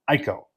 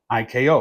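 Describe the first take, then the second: First: The name is said as a single word. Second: The name is spelled out as separate letters.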